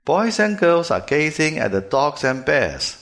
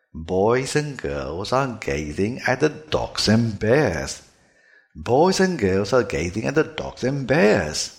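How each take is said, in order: First: Put-on "Boys and girls are gazing at the dogs and bears" higher and louder, with p, k, t in place of b, g, d; "Boys and girls are gazing at the dogs and bears" with b, g and d devoiced; "Boys and girls are gazing at the dogs and bears" read the wrong way, with voiceless consonants. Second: "Boys and girls are gazing at the dogs and bears" slower, with voiced b, g, z and d; "Boys and girls are gazing at the dogs and bears" with the b, g and d buzzing, drawn out; "Boys and girls are gazing at the dogs and bears" read the native way, with voiced consonants.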